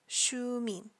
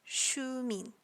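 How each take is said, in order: The two takes are said the same way.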